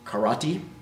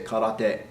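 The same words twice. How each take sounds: First: It is pronounced in an English-style way. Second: It is pronounced in a Japanese-style way. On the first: The speaker calls it wrong. "you hear it said karate" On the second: The speaker calls it right. "If you want to sound like you at least understand Japanese a little"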